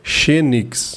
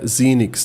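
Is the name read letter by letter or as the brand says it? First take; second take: letter by letter; as the brand says. First: The name is read as Portuguese spelling suggests. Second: The name is said the brand's own way. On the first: The speaker calls it wrong. "ler o fonema em português aqui ao pé da letra, parece ser Xenix" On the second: The speaker calls it right. "a pronúncia correta seria Zinix"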